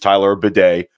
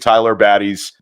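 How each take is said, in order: First: The surname sounds like the word 'bidet'. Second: The surname sounds like the word 'batty'. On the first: The speaker calls it right. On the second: The speaker calls it wrong.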